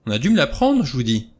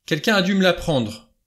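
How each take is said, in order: First: High, loud start, then dropping away; helpless, distraught. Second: High, vehement protest; vehement cry. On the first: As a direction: insist helplessly, at a loss. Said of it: "d'une voix faible, désemparée". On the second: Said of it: "s'écria Armstrong avec véhémence". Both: A narrator's reading.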